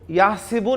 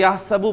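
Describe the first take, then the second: First: The middle syllable has an 'i' vowel. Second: The middle syllable has an 'a' vowel. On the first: This is the dictionary form, not the Hafs reading. The speaker calls it wrong. "इसको याहसिबु नहीं पढ़ा जाता" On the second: This is how the Hafs reading recites it. The speaker calls it right. "बल्कि याहसबु पढ़ा जाता है"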